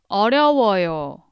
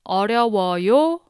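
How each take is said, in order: First: The voice falls at the end. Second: The voice rises at the end.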